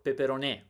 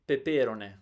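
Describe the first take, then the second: First: The stress is on the fourth syllable. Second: The stress is on the first syllable.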